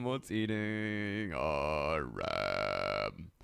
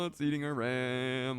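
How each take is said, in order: First: Very slow, low and stretched; slowed-down mock drawl; drawn-out slow take. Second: Said in the usual way. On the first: Shown as a demonstration. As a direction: drag every word out lazily. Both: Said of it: "repeats the line twice".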